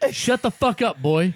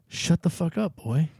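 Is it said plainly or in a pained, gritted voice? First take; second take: plainly; pained. First: It is said plainly, without pain. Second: It is said through the teeth, sounding pained.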